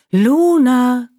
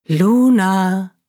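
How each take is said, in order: First: Higher, louder mysterious call of Luna; eerie call rising, louder; calling again. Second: Mysterious distant call of a name; eerie voice calling Luna; calling softly. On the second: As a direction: call her name from far away. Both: Acted. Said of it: "Ganz leise und deutlich rief sie ihren Namen".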